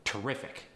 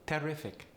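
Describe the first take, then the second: First: Said in the usual way. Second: "Terrific" as tair-RIF-ic; higher Polish-accented "Terrific"; Polish air sound. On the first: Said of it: "is gonna get that switch". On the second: Shown as a demonstration. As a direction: stress second syllable of "Terrific", air for ER. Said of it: "emphasis on the second syllable".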